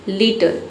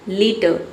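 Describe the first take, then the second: Both takes have the same delivery.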